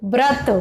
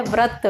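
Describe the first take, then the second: First: व्रत said as brat. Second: व्रत said as vrat; initial v sound. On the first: Teacher shows common mistake, व्रत with initial b. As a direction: start व्रत with a b sound. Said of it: "बहुत सारे लोग व्रत बोलते हैं". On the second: Teacher gives correct form, व्रत with initial v. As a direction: start व्रत with v, no b. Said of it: "शुद्ध होता है". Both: Shown as a demonstration.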